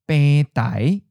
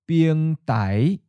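First: The word uses its colloquial reading. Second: The word uses its literary reading. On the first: "With a colloquial pronunciation, you would say" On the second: "when read with a literary pronunciation"

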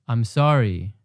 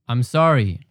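No difference in how they are said.

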